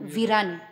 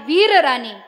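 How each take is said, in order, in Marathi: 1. शब्द संक्षिप्त रूपात म्हटला आहे. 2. शब्द पूर्ण रूपात म्हटला आहे. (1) "त्याचा अपभ्रंश केला" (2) "मूळ शब्द आहे"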